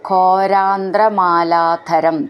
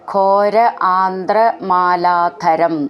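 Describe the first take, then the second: First: The two words are merged into one. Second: The two words are said separately.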